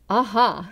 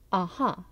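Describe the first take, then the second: First: It is said with more robust, energetic feeling. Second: It is said plainly, in an everyday way.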